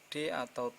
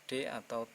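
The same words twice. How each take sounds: The two takes are said the same way.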